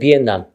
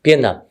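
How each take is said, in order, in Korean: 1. n 소리로 발음해요: Bien-nam. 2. n 소리로 발음해요: Bien-nam.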